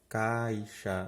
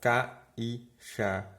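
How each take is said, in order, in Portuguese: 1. O i desliza para a mesma sílaba que o a. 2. O i é pronunciado como uma sílaba própria. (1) "você fala caixa, naturalmente" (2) "você não fala caixa"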